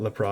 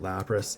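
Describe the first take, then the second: First: The name ends without a final s sound. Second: The name ends with a final s sound. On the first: The speaker calls it wrong. "I call it Lapra" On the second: The speaker calls it right. "everybody calls it Lapras"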